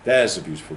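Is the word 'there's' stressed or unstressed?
stressed. The word 'there's' carries strong stress. "That would be stressed"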